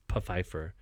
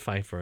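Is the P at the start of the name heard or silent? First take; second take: heard; silent. First: The name starts with a P then F sound. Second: The name starts with a plain F sound. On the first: The speaker calls it right. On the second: The speaker calls it wrong.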